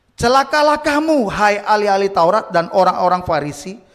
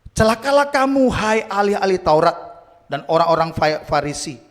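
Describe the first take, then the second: Both takes have the same delivery.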